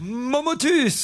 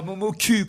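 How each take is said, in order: First: "Momotus" slowly in three syllables, mo-mo-tus; "Momotus" drawn out and stressed; slow correction. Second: "Momo cul" with a short final "cul"; the mistaken "Momo cul" said quickly; wrong name. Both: Shown as a demonstration. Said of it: "Non, Momotus".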